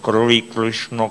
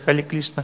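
First: It is said with an English accent, clipped start. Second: It is said with a Chinese accent, l for r. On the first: "Англоязычные люди повторяют" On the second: "Китайцы вообще повторяют"

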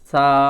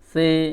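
First: The letter name ends in an 'a' vowel. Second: The letter name ends in an 'e' vowel. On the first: This is the Arabic way of naming the letter. The speaker calls it right. "এইভাবে উচ্চারণ করবেন" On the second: This is the Urdu way of naming the letter. The speaker calls it wrong. "এইভাবে উর্দুতে উচ্চারণ করা হয়"

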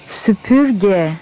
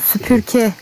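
First: The consonant before the final vowel is a g. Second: The consonant before the final vowel is a k. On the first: The speaker calls it right. "şimdi doğrusunu söyledim" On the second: The speaker calls it wrong. "Ama ben hızlı söylediğim için şey olmuyor"

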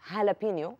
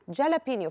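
First: The word begins with an H sound. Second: The word begins with a J sound. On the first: This is how people actually say it. "زي ما بنقول هالابينيو" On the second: This follows the written spelling. "بتتكتب الهالابينيو بالجي"

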